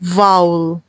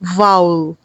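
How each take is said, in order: The two takes are said the same way.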